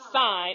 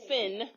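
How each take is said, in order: First: The vowel is a long 'eye' sound. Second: The vowel is a short 'ih' sound. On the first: The speaker calls it right. "So sine, not sin, sine" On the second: The speaker calls it wrong. "not sin"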